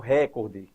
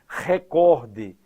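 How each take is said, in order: First: The stress falls on the first syllable. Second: The stress falls on the second syllable. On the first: The speaker calls it wrong. "e não recorde, que seria uma proparoxítona" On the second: The speaker calls it right. "Recorde sem acento"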